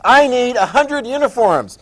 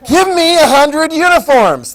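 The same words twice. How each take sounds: First: Higher, louder, slow play-acted order; acted official request. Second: Loud, high, slow play-acted command; bullying mock demand. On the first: British government to the uniform store, emphatic request. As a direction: place a big order, slowly and emphatically. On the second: British government seizing from the store, loud mock demand.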